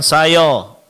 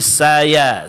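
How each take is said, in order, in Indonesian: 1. Suku kata ya dibuat tebal, terdengar seperti 'yo'. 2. Suku kata ya tetap dibaca tipis dan ringan. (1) "jadi bukan sayo" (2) "tetap ianya ditipiskan ... tapi saya"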